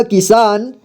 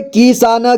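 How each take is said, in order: First: Said in the usual way. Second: किसान as कि-सा-न, ending "na"; syllable by syllable. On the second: Shown as a demonstration. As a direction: sound out किसान part by part. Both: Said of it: "एक ही बार में पढ़ेंगे".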